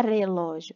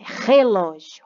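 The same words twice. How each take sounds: First: Flick the first R of "relógio" lightly, as in "caro"; weak initial R. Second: Slow, louder "relógio" with a strong guttural H-like R; strong initial R. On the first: Teacher showing pupils the wrong sound, "relógio" with a weak tapped R. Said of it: "Não é relógio". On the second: Teacher correcting the start of the word, "relógio" with a strong H-like R. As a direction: push the first R of "relógio" as a breathy H sound. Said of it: "O som do R também é forte no início". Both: Shown as a demonstration.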